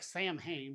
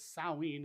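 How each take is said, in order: First: The word is pronounced the way it is spelled. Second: The word is pronounced unlike its spelling. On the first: The speaker calls it wrong. "it looks like Sam Hain" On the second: The speaker calls it right. "is how they pronounced it"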